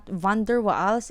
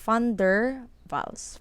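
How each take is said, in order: First: Waals begins with a W sound. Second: Waals begins with an F-like sound. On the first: The speaker calls it wrong. "It's not van der Waals" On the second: The speaker calls it right. "you pronounce it as F"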